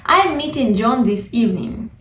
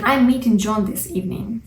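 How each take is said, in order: First: Said in the usual way. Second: Faster quoted repeat; quick quoted example. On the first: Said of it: "future arrangements". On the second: Shown as a demonstration. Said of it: "What does it mean".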